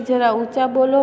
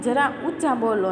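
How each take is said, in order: First: Raised, loud plea to speak up; mock shout of જરા ઊંચા બોલો; louder request. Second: Said in the usual way. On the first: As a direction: call out so they'll speak louder. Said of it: "Munno કહે છે". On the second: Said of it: "ઓલાએ ફોનમાં એમ કીધું".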